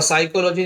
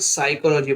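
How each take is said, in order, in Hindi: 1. इस शब्द की शुरुआत P की ध्वनि से होती है। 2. इस शब्द की शुरुआत S की ध्वनि से होती है। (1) "साइकोलॉजी नहीं पढ़ेंगे" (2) "साइकोलॉजी पढ़ेंगे"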